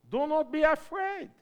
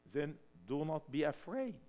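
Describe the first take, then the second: First: Higher and louder, ringing out; a bold rallying cry to the church; loud call. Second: Said in the usual way. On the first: Shown as a demonstration. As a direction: proclaim it to the whole room.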